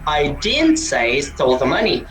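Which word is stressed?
didn't. The word 'didn't' is stressed. Nothing was said at all. "Wala akong sinabi"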